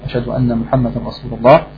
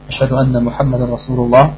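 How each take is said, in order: The two takes are said the same way.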